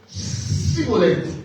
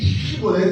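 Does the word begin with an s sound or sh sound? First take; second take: s sound; sh sound. First: The word begins with an s sound. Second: The word begins with a sh sound. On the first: The speaker is from the enemy group. The speaker calls it wrong. "il disait Siboleth" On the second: This is the accepted pronunciation. The speaker calls it right. "au lieu de dire Shibboleth"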